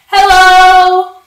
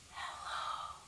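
First: Hello is said very loudly. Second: Hello is said very quietly.

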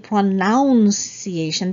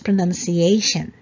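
First: The second syllable sounds like 'noun'. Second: The second syllable sounds like 'nun'. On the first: The speaker calls it wrong. "a lot of people say pronunciation because of the verb pronounce" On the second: The speaker calls it right. "it's N-U-N, so it's not noun. So it's pronunciation"

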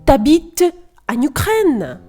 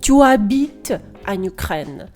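First: The vowel of tu is dropped entirely. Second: The vowel of tu is fully pronounced. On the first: "Так легше і простіше" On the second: "ніж"

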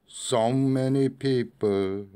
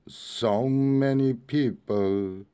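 Both takes have the same delivery.

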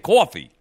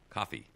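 First: It is said with a New Jersey accent. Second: It is said with a Midwestern accent. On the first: "I can always tell that you're from New Jersey when you say the word coffee, because you say coffee" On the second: "not coffee"

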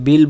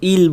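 First: The word begins with a b sound. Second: The word begins directly with a vowel. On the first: "আমরা অনেকে বিল বলে ফেলি" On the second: "আর কেউ ইল বলে ফেলি"

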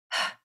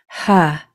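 First: It is a voiceless breath with no vowel. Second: It is voiced with a vowel at the end. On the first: The speaker calls it right. "It's just ha" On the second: The speaker calls it wrong. "Make sure it's not ha. We don't want that sound at the end"

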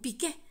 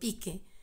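First: The stress is on the last syllable. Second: The stress is on the first syllable. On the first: It names the footballer. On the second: It names the 1986 chili mascot.

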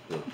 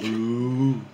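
First: It is said quietly. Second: It is said loudly.

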